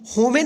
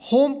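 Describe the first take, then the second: First: A vowel sound is heard after the final m. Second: The word ends on the m with no vowel. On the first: The speaker calls it wrong. "इसको हम होमे नहीं पढ़ेंगे" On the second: The speaker calls it right. "जो last में ई है ना, इसका कोई उच्चारण नहीं होगा"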